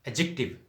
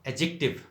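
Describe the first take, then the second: No difference in how they are said.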